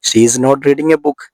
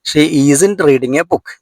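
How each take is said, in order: First: The words 'is not' are said separately. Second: The words 'is not' merge into 'isn't'. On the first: "ഈസിനോട് കൂടി നോട്ട് ചേർക്കുക" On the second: "ഈസ് നോട്ടിന്റെ short form എന്താണ്? ഈസിന്റ്"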